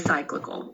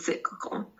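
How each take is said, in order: First: The first syllable sounds like 'sigh'. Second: The first syllable sounds like 'sick'. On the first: The speaker calls it wrong. "we wouldn't say cyclical" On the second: The speaker calls it right. "We'd say cyclical"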